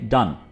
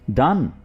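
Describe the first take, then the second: First: The voice falls at the end like a statement. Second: The voice rises at the end like a question. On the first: It tells that something is finished. "अगर आप simply कहेंगे डन" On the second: It asks whether something is finished. "आपका लहजा भी question वाला होना चाहिए, यानी सवालिया लहजा होना चाहिए।"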